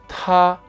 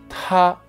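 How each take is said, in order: First: The t is released with a strong puff of air. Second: The t is released with a strong puff of air.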